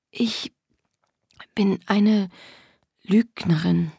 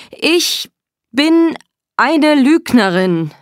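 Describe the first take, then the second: First: Halting, faint, broken by pauses; cowed confession. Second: High, loud, drawn-out cry; forced loud confession. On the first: Acted. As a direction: force it out timidly, word by word. Eingeschüchtertes Geständnis. (eingeschüchtert, leise stockend) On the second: A narrator's reading. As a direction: cry it out word by word under orders. (verzweifelt laut gerufen)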